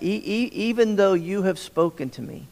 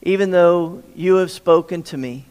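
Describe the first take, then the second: First: Stumbling repeats on the first sound of even; stuttered start. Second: Said in the usual way. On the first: Shown as a demonstration. Preacher showing how Moses stutters the words, halting restart. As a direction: trip over E-, e-, even before getting it out. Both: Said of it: "notice that".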